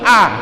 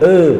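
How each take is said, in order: First: The mouth is wide open, giving a clear 'ah'. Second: The mouth is barely open, so it sounds 'eh'. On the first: The speaker calls it right. "mulut harus dibuka" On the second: The speaker calls it wrong. "a jadinya e"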